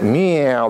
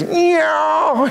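First: Said in the usual way. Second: Higher, pushy cat meow; a cat that wants feeding now; insistent hungry meow; demanding meow. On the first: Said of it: "It's not that meow". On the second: Shown as a demonstration. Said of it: "It's not that. It's meow".

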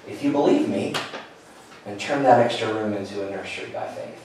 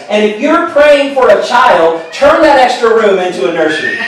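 First: Soft and low, a quiet inner voice; hushed voice of God. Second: Higher, punchy preacher delivery; preacher's line. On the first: Recalling God quietly speaking to him, soft and low. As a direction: let it land gently, like a whisper heard inside. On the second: Brother preaching to the congregation, higher and emphatic. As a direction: lift it like a pastor driving the point home. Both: Retold or imitated.

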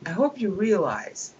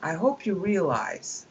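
Both takes have the same delivery.

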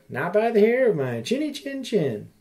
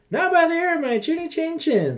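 First: A hint of a squeaky little pig; lightly voiced piggy reply. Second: High squeaky piggy voice; squeaky little pig. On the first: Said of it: "Little pig said". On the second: Acted. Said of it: "said the second little pig".

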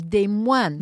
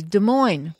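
First: "Des Moines" said "day-MWAN", slowly; French pronunciation. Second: "Des Moines" said "duh-MOYN", slowly; American pronunciation. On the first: Revealing the French name behind it, "day-MWAN". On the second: Listing US places with French names, "duh-MOYN". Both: Shown as a demonstration. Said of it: "have French names".

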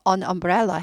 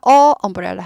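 First: "an umbrella" joined as "a-numbrella"; linked n. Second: "어" as a separate vowel before "umbrella"; article without n. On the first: Teacher gives the correct form, "an umbrella" linked by n. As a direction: carry the n of "an" into "umbrella". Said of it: "해야지 구분이 가겠죠". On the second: Teacher shows what to avoid, "uh umbrella" with two vowels meeting. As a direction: say a bare "uh", then "umbrella". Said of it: "하지 않고 an umbrella 해야지". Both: Shown as a demonstration.

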